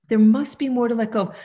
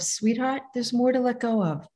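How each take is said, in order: First: Said in the usual way. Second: Soft and tender, softer voice; gentle soothing self-talk; loving mother. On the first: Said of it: "Like a loving mother". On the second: Shown as a demonstration. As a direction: speak to yourself like a loving mother. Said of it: "Like a loving mother, I say to myself".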